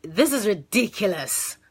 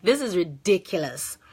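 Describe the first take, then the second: First: Exasperated. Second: Said in the usual way. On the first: Retold or imitated. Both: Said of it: "that was my reaction".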